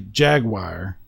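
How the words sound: The word is said with a Texan pronunciation. The speaker calls it wrong. "In Texas, we tend to say Jaguar"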